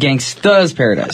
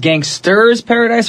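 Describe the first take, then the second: First: The first word ends without an R sound. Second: The first word ends with an R sound. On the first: The speaker calls it right. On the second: The speaker calls it wrong.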